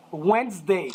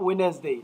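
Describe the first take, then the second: First: Wednesday as WENZ-day, two syllables. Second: Wednesday said as wed-nes-day, three syllables; wrong three-syllable Wednesday. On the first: Teacher modelling the right Wednesday for students, two syllables. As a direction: drop the middle d, WENZ-day. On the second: Teacher showing the class the wrong Wednesday, three syllables. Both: Shown as a demonstration. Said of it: "it has two syllables, not three".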